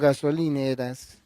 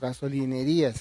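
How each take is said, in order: First: The word ends in -eras, with five syllables. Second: The word ends in -erías, with six syllables.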